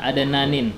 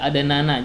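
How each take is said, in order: First: The word ends in an added '-in' sound. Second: The word ends in a plain 'a' vowel. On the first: The speaker calls it wrong. "jangan adananin" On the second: The speaker calls it right. "dibaca adanana"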